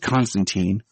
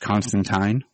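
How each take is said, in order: First: The name has its American pronunciation. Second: The name has its British pronunciation. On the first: "Keanu's Constantine ... we'll go with Keanu for the American" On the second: "the British, I guess, proper pronunciation"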